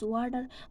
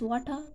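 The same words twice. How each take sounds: First: The t sounds like d; the r is heard. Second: The t is crisp; the r is silent. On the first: "they pronounce water as water" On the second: "British pronounce as water"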